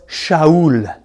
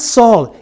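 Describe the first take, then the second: First: "Shaul" opened with SH, in two syllables; "Shaul" drawn out with a SH start; Hebrew pronunciation. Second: "Saul" as one syllable with a plain S; "Saul" with no SH sound; anglicised pronunciation. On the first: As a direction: slowly say "Shaul" as sha-OOL. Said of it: "he was Shaul". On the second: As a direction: say "Saul" the English way, like "sawl". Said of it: "So he was not Saul". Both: Shown as a demonstration.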